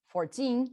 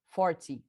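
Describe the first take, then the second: First: Fourteen with a long, strong second syllable; stress on TEEN. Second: Forty hit on the first syllable, short falling ty; stress on FOR. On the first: Teacher contrasting with forty, fourteen stressed on teen. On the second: Teacher contrasting with fourteen, forty stressed on for. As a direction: punch the start of forty. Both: Shown as a demonstration. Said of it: "Bota a força onde tá a maior".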